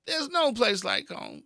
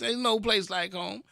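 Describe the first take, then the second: First: There's no place like home, slow and longing, high on no; dreamy Dorothy line, drawn out; wistful, slowed. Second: Said in the usual way. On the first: Shown as a demonstration. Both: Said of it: "One more time".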